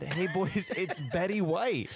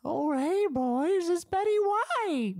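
First: Quoting through laughter; laughing while repeating. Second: Put-on high, slow old lady voice. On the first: Retold or imitated. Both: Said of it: "I think she just said".

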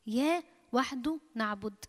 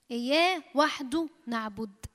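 First: إياه وحده نعبد again, softer and fading; soft repeat. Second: إياه drawn out, slow and even; slow declaration. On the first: Preacher softly echoes the declaration to the church. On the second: Preacher leads the church in a slow declaration. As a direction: slowly declare إياه وحده نعبد. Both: Shown as a demonstration.

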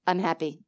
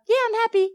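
First: Lower, softer, settled answer; mean every word, quietly; sincere. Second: High, breezy throwaway yeah; glib brush-off. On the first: Showing the true answer to Jean's question, soft and sincere. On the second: Showing the shallow answer to Jean's question, a high glib brush-off. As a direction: toss it off without meaning it. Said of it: "It's not a". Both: Shown as a demonstration.

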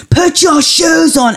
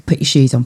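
First: Put-on high, slow, drawn-out yell at the child; the third time it finally snaps into a yell; exasperated parent yelling, high and slow; shouting at child. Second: Said in the usual way. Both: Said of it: "Oh God, I shouted at him".

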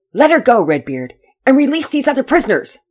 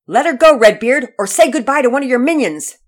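First: Loud, higher firm command; stern order. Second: Loud, much higher bold hero's shout; fearless shout. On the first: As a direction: order him with iron authority. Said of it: "Pearson sternly ordered". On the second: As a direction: yell the threat without fear. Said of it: "Pearson shouted at Redbeard". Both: Acted.

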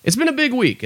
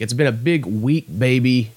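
First: Pitched way up, falling at the end; a squeaky proclamation; high mock announcement. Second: Said in the usual way. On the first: Repeats the line in a new voice.

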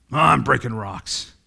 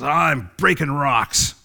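First: Slow, weary drag of a man who just breaks rocks; listless laborer, dragged out; bored worker. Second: Slow, weary mumble of a bored laborer; tired rock breaker, slow and listless; bored worker. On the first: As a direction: sound like the job means nothing. Repeats first worker contrast. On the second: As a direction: drag it out like the job means nothing. First worker voiced in parable. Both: Acted.

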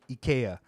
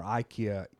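First: "ikea" said ee-KAY-uh; Japanese pronunciation. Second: Said in the usual way. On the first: Shown as a demonstration. Host giving the local name in Japan, "ikea" as ee-KAY-uh. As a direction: say "ikea" with an opening ee and a stressed kay. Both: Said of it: "as they say out here".

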